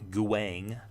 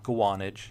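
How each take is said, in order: First: The name is cut to one syllable. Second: The name is said as Gwa-nage. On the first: "It's not Guang" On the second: "no, it's not Guanage"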